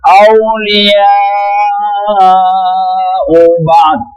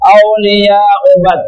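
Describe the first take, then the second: First: The long vowel is held for five beats. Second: The long vowel is held for two beats. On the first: The speaker calls it right. "Itu panjangnya lima ketuk itu" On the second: The speaker calls it wrong.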